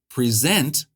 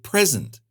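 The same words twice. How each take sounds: First: The stress is on the second syllable. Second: The stress is on the first syllable. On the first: It means to give or introduce something. "If it's on the second syllable" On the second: It means a gift or now. "with stress on the first syllable to mean a gift or now"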